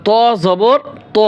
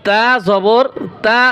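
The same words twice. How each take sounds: First: ত with a dark rounded o-like vowel; heavy Arabic ta. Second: Slowly spelt, তা with an open a; light Arabic ta. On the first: Teacher contrasting two letters for students, heavy rounded ত. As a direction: round and darken both ত sounds. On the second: Teacher contrasting two letters for students, slow light তা. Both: Shown as a demonstration. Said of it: "এই উচ্চারণের পার্থক্য দেখেন".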